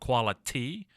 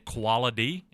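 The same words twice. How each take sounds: First: The middle consonant sounds like a T. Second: The middle consonant sounds like a D. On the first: The speaker calls it right. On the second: The speaker calls it wrong.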